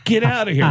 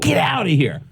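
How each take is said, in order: First: High, incredulous "get outta here"; mock disbelief, pitched way up. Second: High, incredulous "Get outta here"; mock amazement, pitched way up; disbelief. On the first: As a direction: act floored by the news. Disbelieving reply to the news. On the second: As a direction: pretend you can't believe it. Repeats his disbelieving reply.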